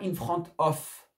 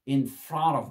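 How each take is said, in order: First: The phrase is fully pronounced, with a full of. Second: The phrase is reduced, with of sounding like v. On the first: The speaker calls it wrong. "Et pas in front of" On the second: The speaker calls it right. "on est réduit au maximum"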